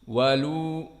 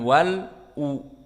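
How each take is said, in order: First: The l runs straight into u, no glottal stop. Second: A glottal stop separates the l from u. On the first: The hamzah's vowel moves onto the preceding lam. The speaker calls it right. "akan membaca dengan naql walu" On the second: The hamzah is pronounced in full. The speaker calls it wrong. "bukan wal u"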